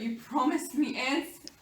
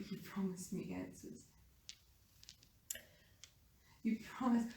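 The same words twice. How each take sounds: First: Insistent dying plea. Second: Very soft, weakened call; faint, halting accusation from the dying; raspy, quiet dying plea. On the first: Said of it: "call out to Jonathan quietly". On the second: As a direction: rasp it quietly, as if losing blood. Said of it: "probably pretty raspily, as I'm losing blood". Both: Acted.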